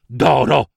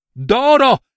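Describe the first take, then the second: First: Said in the usual way. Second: Excited exclamation. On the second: A narrator's reading. Narrator exclaims gold echo.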